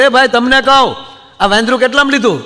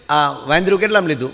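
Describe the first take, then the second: First: Louder and higher, pressing the man for an answer; impatient repeat. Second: Said in the usual way. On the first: Retold or imitated. Husband asks the trainer the price a third time, louder and impatient. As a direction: call out like you've asked too many times. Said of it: "ત્રીજી વાર કીધું". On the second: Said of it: "કીધું કે".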